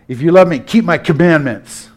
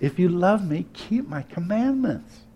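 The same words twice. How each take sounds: First: The tone is stern and demanding. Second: The tone is gentle and warm. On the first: Obedience is demanded under threat. The speaker calls it wrong. "he didn't say it like this" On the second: The request comes from someone who is on your side. The speaker calls it right. "I'm sure he said it more like this"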